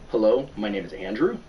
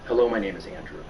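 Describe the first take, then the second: First: It is said as a question, rising at the end. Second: It is said as a statement, falling at the end. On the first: It asks about the speaker's name. "I make it a question" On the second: It states the speaker's name. "that same statement"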